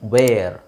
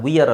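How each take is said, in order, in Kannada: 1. ಸ್ವರ "air" ತರ ಕೇಳಿಸುತ್ತೆ. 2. ಸ್ವರ "ee-ar" ತರ ಕೇಳಿಸುತ್ತೆ. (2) "ಕೆಲವರು ಇದನ್ನು ವಿಯರ್ ಅಂತ ಹೇಳ್ತಾರೆ, ವಿಯರ್ ಅಲ್ಲ"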